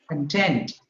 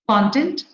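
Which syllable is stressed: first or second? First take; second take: second; first. First: The stress is on the second syllable. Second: The stress is on the first syllable. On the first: It is a verb or adjective. "If it is a verb, ... stress falls on the second syllable" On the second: It is a noun. "if it is a noun, it is on the in the beginning"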